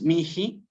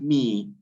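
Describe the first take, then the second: First: The middle h is sounded like a breathy h. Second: The middle h is silent, giving mi. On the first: The speaker calls it wrong. "No es mihi" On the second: The speaker calls it right. "sino es mi"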